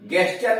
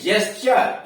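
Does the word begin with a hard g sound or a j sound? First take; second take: hard g; j sound. First: The word begins with a hard g sound. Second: The word begins with a j sound. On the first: The speaker calls it wrong. "गेस्चर नहीं" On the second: The speaker calls it right. "यहां जी का उच्चारण जो हो गया जेस्चर"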